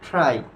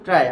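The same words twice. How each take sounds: First: The t is said with a puff of air. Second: The t is said without a puff of air. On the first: The speaker calls it right. "টি এর উচ্চারণ কিন্তু ট হবে না, কি হবে বলতো ঠ হবে" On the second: The speaker calls it wrong. "আমরা নরমালি কি করি বলতো ট্রাই করি"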